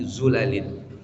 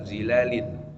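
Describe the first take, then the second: First: The first vowel is 'u', with a short 'a'. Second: The first vowel is 'i', with a long 'a'. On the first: This is the reading of two other recognized reciters. "tapi zulalin ... dengan mendomahkan huruf dha min ghairi alif tanpa alif" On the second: This is the common reading. "bukan zilalin"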